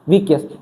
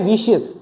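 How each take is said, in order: First: The middle consonant is a hard K sound. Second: The middle consonant is a soft SH sound. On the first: The speaker calls it wrong. "वैसे अगर इसको पढ़े तो" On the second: The speaker calls it right. "वैसे इसका होता क्या? विशियस"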